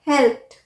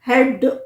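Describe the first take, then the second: First: The word ends with a t sound. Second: The word ends with a d sound. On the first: The speaker calls it right. "हमने ED को pronounce किया ठ" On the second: The speaker calls it wrong. "हेल्प्ड नहीं"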